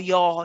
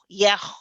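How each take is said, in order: First: The vowel is dark and heavy. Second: The vowel is overly thin and light. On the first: "The ya becomes heavy" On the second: "That's too much too. That's gone the other way"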